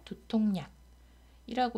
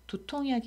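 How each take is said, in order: First: It is said with an added n sound. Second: It is said without an added n sound. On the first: The speaker calls it right. "니은이 첨가가 됐는데" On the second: The speaker calls it wrong. "실제 소리는 두통약이 아니라"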